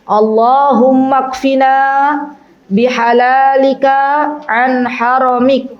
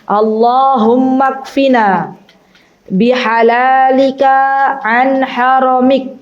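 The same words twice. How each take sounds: Both takes have the same delivery.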